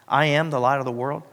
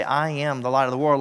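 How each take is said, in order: First: I am stressed, the I rising; emphatic I am. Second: Said in the usual way. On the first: Shown as a demonstration. Pastor showing Jesus' emphatic words, stress on I. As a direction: lean hard on I am. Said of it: "he used an emphatic form of that word". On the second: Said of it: "That's not how Jesus said it".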